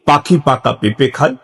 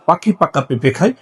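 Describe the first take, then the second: First: It is said at a slightly quicker pace. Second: It is said at a noticeably quicker pace. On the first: "আরেকটু স্পিডে" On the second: "আরো একটু স্পিডে"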